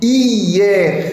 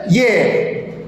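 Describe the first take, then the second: First: The word is said in two syllables. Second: The word is said in one syllable. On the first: "en deux syllabes, en diérèse" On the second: "ou en une seule syllabe, en synérèse"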